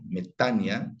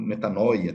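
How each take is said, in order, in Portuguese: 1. A palavra tem uma vogal 'ee' simples depois de 'metan'. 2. A palavra tem o ditongo 'oy' depois de 'metan'.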